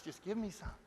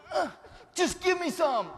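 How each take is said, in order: First: Softer, flat repeat of the plea; quiet echo. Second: Higher, louder laughing plea; mock pleading lady. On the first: Retold or imitated. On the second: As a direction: beg like a greedy lady, laughing. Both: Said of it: "this lady over here going".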